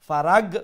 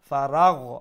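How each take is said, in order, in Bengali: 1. শেষের ব্যঞ্জনটি একটি শক্ত g ধ্বনি। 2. শেষের ব্যঞ্জনটি একটি নরম গলার gh ধ্বনি। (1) "ফারাগ হইতো না" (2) "মুলাইম হইতো"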